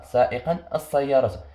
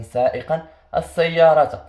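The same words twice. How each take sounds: First: Said in the usual way. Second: سائقا السيارة said slowly and louder, leaning on السيارة; slow, stressed model phrase with السيارة hit hard; emphasized phrase. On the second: Shown as a demonstration. Teacher stresses the linked words for students. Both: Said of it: "خصني نشوف الكلمة التي بعدها".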